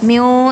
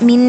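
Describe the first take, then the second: First: The final n is hidden and barely heard. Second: The final n is nasalized with a hum. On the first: "നൂനിനെ മറക്കാനും പാടി മറച്ചു വെച്ച് പാരായണം ചെയ്യാനും പാടില്ല" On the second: "മിൻ എന്ന് മണിക്കാനും പാടില്ല"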